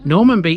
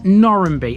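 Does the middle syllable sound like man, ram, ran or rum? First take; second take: man; ran. First: The middle syllable is said as 'man'. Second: The middle syllable is said as 'ran'. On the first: This follows the name's origin. "theoretically the correct way" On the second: This is how locals say it. "Locals call this Norranby, effectively reversing the A and the M"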